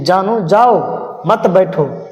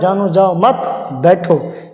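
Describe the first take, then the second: First: The pause comes after jao, meaning go. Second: The pause comes after mat, meaning don't go.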